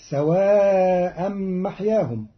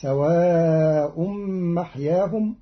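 First: Said in the usual way. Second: سواء ending in u, "sawā'um", long drawn; Qalun reading. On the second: Shown as a demonstration. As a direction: say سواء with damma and a slow madd. (سواء بالرفع) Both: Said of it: "قرأ قالون كلمة سواء برفعها".

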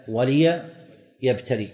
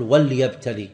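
First: "وليبتلي" slowly, lām with kasra: wa-li-yabtaliya; correct pronunciation. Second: "وليبتلي" with a silent lām: wal-yabtali, the wrong reading; wrong pronunciation. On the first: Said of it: "لا". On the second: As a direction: say "وليبتلي" with sukūn on the lām as the mistake to avoid. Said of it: "لا يصح أن تقول". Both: Shown as a demonstration.

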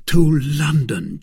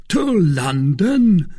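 First: Said in the usual way. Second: Loud, high, drawn-out question; astonished cry. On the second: A narrator's reading. Porthos to D'Artagnan on hearing the destination, astonished cry. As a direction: cry it out in slow disbelief. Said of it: "cried Porthos".

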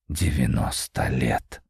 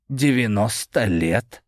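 First: Low, slow musing repetition; thoughtful. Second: Said in the usual way. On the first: A narrator's reading. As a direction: taste the words slowly. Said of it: "задумчиво проговорил он".

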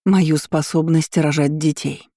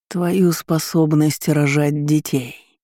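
First: Said in the usual way. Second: Slow rustling demon voice; drawn-out rustle, savouring it; demonic whisper. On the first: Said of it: "повторила я". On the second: A narrator's reading. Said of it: "прошелестел демон". (шелестящий шёпот демона)

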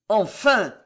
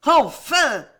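First: Put-out, grudging exclamation; a touch of displeasure, firmly voiced; somewhat vexed. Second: Loud, high triumphant shout; exultant, savage outcry; howl of furious joy. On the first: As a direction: say it with mild annoyance. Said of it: "répéta le maréchal de Tavannes avec une sorte de contrariété". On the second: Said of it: "avait hurlé Catherine avec un accent de joie furieuse". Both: A narrator's reading.

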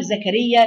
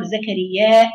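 First: "زكريا" ending on a short, unstretched alif; "زكريا" with a shortened ending; short final vowel. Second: "زكريا" with the final alif drawn out long; "زكريا" with a lengthened ending; long final vowel. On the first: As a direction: say "زكريا" with the last vowel kept short, no hamza. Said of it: "بالقصر". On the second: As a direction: stretch the last vowel of "زكريا". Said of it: "بالمد". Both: Shown as a demonstration.

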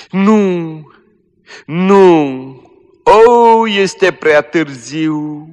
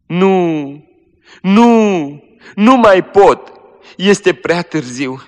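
First: High, loud, very slow despair; dying girl wails in despair, high and slow; anguished wail. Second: High, loud, slow anguish; dying girl cries out in despair, high and loud; despairing cry. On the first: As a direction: wail that it is too late. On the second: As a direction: cry out that it is too late. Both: Acted.

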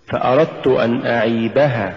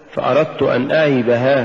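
First: أعيبها as one word, push on عي; "فأردت أن أعيبها" with ها left light; correct recitation. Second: أعيبها with the ending pushed; split-sounding ها in "فأردت أن أعيبها"; misplaced push late in أعيبها; wrong stress. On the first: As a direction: stress عي in أعيبها. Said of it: "قل". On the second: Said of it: "ولا تقل". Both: Shown as a demonstration.

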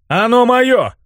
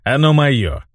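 First: Very high, insistent protest; outraged cry. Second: Measured, self-assured claim; quietly gloating. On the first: Hero defends his own body, crying out. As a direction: claim it as yours, pitched right up. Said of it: "закричал я". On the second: Mage claims the hero's body, calmly gloating. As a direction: state ownership calmly, with relish. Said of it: "тихо засмеялся маг". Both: A narrator's reading.

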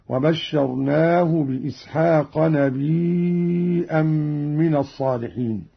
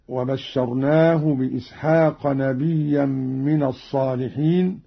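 First: نبيا read نبيئا with a hamza, stretched four counts; hamza with long madd. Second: Said in the usual way. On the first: Shown as a demonstration. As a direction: lengthen the vowel before the hamza in نبيا. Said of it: "همز قالون الياء، وتصير عنده مدا متصلا". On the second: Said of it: "همز قالون الياء".

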